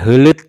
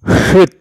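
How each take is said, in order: First: Both the l and t sounds are pronounced. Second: Only a t sound ends the word. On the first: "bukan hulut atau hut atau hut, salah ya" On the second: "bukan hulut atau hut atau hut, salah ya"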